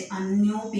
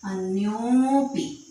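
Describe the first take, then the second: First: अन्योपि read the wrong way, as the teacher warns against; the incorrect way to say अन्योपि. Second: अन्योपि said slowly and louder, with the ओ sound; teacher showing the correct अन्योपि; correct reading. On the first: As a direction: demonstrate how not to read अन्योपि. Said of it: "अन्योपि नहीं पढ़ेंगे इसको". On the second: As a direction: model the right reading of अन्योपि carefully. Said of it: "हम पढ़ेंगे अन्योपि". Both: Shown as a demonstration.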